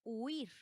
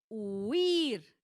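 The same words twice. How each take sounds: First: Said in the usual way. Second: "huir" loud and stretched, leaning hard on the I; stress on I. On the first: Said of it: "se queda así". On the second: Shown as a demonstration. Teacher showing the class the tonic I, "huir" drawn out and loud. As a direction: draw out "huir", swelling into a long stressed I. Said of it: "La sílaba tónica recae en la I".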